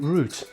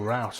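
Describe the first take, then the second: First: It is said in a British accent. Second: It is said in an American accent.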